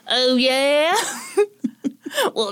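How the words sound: It is said in a Southern American accent.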